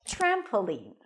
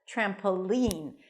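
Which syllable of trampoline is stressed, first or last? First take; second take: first; last. First: The stress is on the first syllable. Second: The stress is on the last syllable. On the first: "I prefer to say it with a stress on the first syllable" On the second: "when you put the stress on the last syllable"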